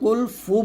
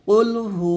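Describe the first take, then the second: First: The second word begins with an f sound. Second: The second word begins with an h sound. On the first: The speaker calls it wrong. "এখানে আমরা কুল ফু বলি, মানে হা পেশ হু না বলে ফা পেশ ফু উচ্চারণ করি" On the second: The speaker calls it right. "হা পেশ হু"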